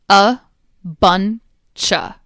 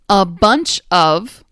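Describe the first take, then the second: First: The word 'of' shrinks to a weak 'a' sound. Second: The word 'of' is pronounced fully and separately.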